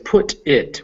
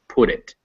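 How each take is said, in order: First: The t is said clearly between separate words. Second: The t is flapped like a quick d. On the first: "when you say them separately" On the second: "when you say it fluidly, it becomes"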